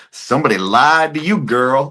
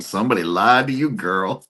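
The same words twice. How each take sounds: First: High, loud mock call-out; hammed-up audience heckle, pitched up; imitated sassy heckler. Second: Lightly voiced heckler, quicker; a milder, quicker mock call-out; imitated sassy heckler. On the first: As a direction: call it out from the crowd, stretching the words. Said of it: "she goes". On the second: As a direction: toss off the heckle as a private thought. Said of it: "I just think to myself".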